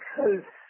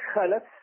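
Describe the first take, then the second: First: The L is followed directly by F, no vowel. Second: The L is followed by a short vowel a. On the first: Bad successors who follow in evil. "بالتسكين" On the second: Good successors who follow in goodness. "في التحريك"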